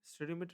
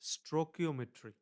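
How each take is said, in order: First: The word begins with the sounds 'stereo'. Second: The word begins with the sounds 'stoichio'. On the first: The speaker calls it wrong. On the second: The speaker calls it right.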